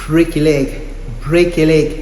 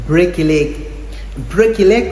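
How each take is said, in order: No difference in how they are said.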